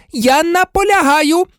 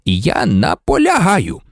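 First: Very high, frantic demand; outraged nurse at the top of her range; hysterical insistence. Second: Composed, firm insistence; measured, calm authority; unyielding. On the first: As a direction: insist in a high-pitched outburst. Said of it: "істерично вигукнула мадам Помфрі". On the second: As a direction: stand your ground without shouting. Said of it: "не поступався Дамблдор". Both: A narrator's reading.

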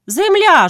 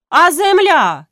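First: Even higher, loud bawl. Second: High, loud bawl. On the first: Grytsko bawls at the meeting, pressing harder. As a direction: bellow it once more, harder. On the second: Grytsko bawls at the meeting about the land. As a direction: bellow it as a protest. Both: A narrator's reading. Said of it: "желапіє Грицько".

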